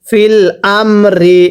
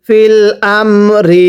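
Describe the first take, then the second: No difference in how they are said.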